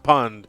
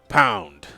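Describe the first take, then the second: First: The vowel is a short 'u' sound. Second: The vowel is an 'ow' sound. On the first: The speaker calls it wrong. "not pund" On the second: The speaker calls it right.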